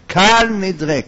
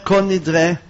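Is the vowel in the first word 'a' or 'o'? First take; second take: a; o. First: The first word is pronounced with an a vowel. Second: The first word is pronounced with an o vowel. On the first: The speaker calls it right. "אבל אנחנו ספרדים אומרים קל נדרה" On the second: The speaker calls it wrong. "לא אומר כל נדרה, טעות להגיד"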